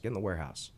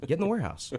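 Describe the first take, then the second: First: Said in the usual way. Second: Higher and louder, firmly repeating the order; repeated firm order. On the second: Retold or imitated. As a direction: bark the command a second time, higher and louder. Dad repeats the order, firmer.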